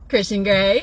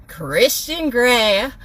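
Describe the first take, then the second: First: Said in the usual way. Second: Mock announcer. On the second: Real, not acted. Sarcastic prize reveal.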